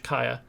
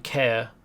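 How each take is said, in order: First: It is said with two syllables, like kai-uh. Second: It is said as one syllable, like care. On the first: The speaker calls it right. "that's how you you would pronounce that, C A E R in Welsh" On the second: The speaker calls it wrong. "rather than Caer as it appears"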